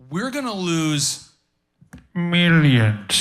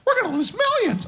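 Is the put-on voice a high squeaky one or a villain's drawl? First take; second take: villain's drawl; high squeaky. First: It is said in a drawling movie-villain voice. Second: It is said in a high squeaky cartoon voice. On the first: "like that kind of that and that Austin Powers millions" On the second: "it's like uh, Mickey. Uh, she doesn't talk like that"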